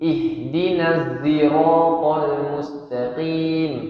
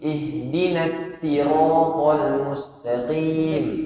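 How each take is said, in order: First: Sirat starts with a z sound. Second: Sirat starts with a plain s sound. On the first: "ada yang pakai za" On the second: "ada yang pakai sin"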